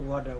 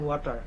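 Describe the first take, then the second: First: American accent, with a soft d-like t. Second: Indian accent, with a clear t sound. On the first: "the Americans say water" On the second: "the Indians say water"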